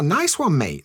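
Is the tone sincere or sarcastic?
sincere. It sounds sincerely pleased.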